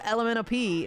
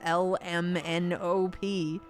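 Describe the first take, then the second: First: The letters are run together quickly. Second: The letters are said slowly and separately. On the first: This is how children usually say it. "kids just go" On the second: This is the slowed-down version. "instead of"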